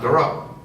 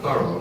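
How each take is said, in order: First: The name does not sound like thorough. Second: The name sounds like the word thorough. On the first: "not Thoreau" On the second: "He liked the thorough pronunciation"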